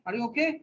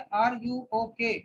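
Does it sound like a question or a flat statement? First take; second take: question; flat statement. First: It is said with a questioning tune. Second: It is said flatly, not like a question.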